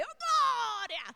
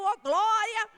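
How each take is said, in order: First: High, slow, drawn-out joyful cry. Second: Much louder joyful shout of praise. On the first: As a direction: stretch out the praise, higher and louder. (grito de alegria alto e arrastado) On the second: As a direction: shout the glória out, higher. Praising while the fire burns. (grito de louvor bem alto) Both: Retold or imitated.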